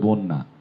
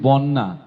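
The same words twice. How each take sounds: First: The first vowel is a rounded 'o' sound. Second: The first vowel is an open 'a' sound. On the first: The speaker calls it right. "ব ওকারান্ত হয়ে যায়, যে কারণে উচ্চারণ হবে বন্যা" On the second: The speaker calls it wrong. "এটি বন্যা বলি অনেকে, কখনোই বন্যা না"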